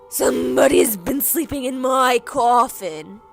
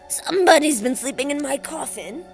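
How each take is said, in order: First: It is said in a big growly voice. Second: It is said in a snarling voice.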